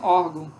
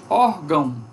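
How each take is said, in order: First: The final syllable is weakened and shortened. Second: The final syllable keeps its full nasal diphthong. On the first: This is how ordinary speakers say it. "As pessoas dizem" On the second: This is the form the word has. "em vez de"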